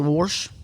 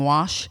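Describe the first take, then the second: First: The word is said with an R sound. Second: The word is said without an R sound. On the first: "It's a North Texas small accent" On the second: "instead of saying wash"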